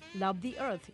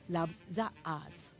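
First: Earth is said with an English th sound. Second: Earth is said like 'as', Japanese-style. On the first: "the event Love the Earth" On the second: "When Japanese try to pronounce the English word Earth for our planet Earth, we say as"

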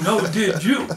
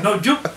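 First: Each word is said plainly and separately. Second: It is run together fast, Geechee style.

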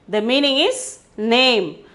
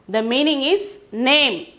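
Both takes have the same delivery.

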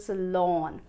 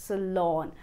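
No difference in how they are said.

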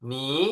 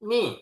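First: The pitch rises from middle to high. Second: The pitch falls sharply from high to low. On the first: "เสียงที่สอง" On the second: "เสียงที่สี่"

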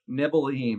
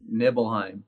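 First: It is whispered in a plain way. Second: It is whispered in a seductive way.

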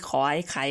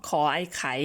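Both takes have the same delivery.

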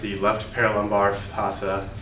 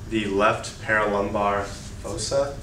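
First: It is said at normal loudness and pace. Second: It is said louder and more slowly.

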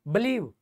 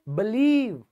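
First: The second vowel is short. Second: The second vowel is a long ee. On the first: The speaker calls it wrong. "आप इसको ये नहीं बोलोगे बिलीव" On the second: The speaker calls it right. "आप इसको बोलोगे बिलीव"

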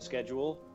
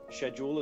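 First: The word is said with an American pronunciation. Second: The word is said with a British pronunciation. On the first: "we say differently in Britain or America" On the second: "we say differently in Britain or America"

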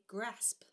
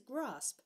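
First: The word is said in a Yorkshire accent. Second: The word is said in the speaker's usual accent. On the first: "if you were from Yorkshire, you would say grasp" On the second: "But the way I say it, is grasp"

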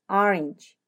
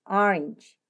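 No difference in how they are said.

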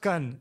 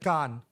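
First: The vowel is short and clipped. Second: The vowel is stretched out long. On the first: The speaker calls it wrong. "so not Kan" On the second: The speaker calls it right. "You're supposed to stretch the A"

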